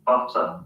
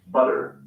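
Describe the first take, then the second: First: British "butter" with a hard T and no final R; crisp British T in "butter"; British accent. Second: American "butter" with a tapped T and sounded R; American accent. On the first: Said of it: "In the U K, they say". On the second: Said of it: "So in the U S, people say". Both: Shown as a demonstration.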